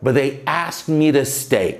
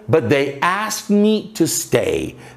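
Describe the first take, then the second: First: The words "me to" blur together like "mira." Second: The words "me to" are said clearly and separately.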